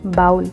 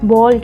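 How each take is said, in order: First: The vowel glides like 'ow' in cow. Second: The vowel is a single 'aw' sound. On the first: The speaker calls it wrong. "बहुत से लोग इसको गलत pronounce करते हैं" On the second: The speaker calls it right. "इसकी जो pronunciation है वो बॉल है"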